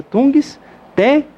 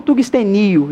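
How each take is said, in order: First: Tungstenio slowly broken up, high stress on TÊ; correct stress on TÊ. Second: Tungstenio stressed on NI, tungste-NI-o; wrong stress on NI. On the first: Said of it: "A correta pronúncia de tungstênio é essa". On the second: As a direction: move the stress of tungstenio onto NI. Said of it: "e não". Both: Shown as a demonstration.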